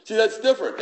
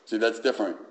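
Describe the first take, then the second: First: "See, that's different" said much higher and louder; emphatic preaching. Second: Said in the usual way. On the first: Shown as a demonstration. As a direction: drive "See, that's different" home with force.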